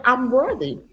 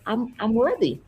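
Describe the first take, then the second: First: Higher, modestly firmer model affirmation; affirmation with power. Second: Mildly hesitant, imitating a client without conviction; unconvinced affirmation. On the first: Retold or imitated. Coach making a client repeat her affirmation, with power. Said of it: "say it with power". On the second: Client saying an affirmation for her coach, unconvinced. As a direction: stumble lightly into it, lacking power. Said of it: "I wanted her to say it with power".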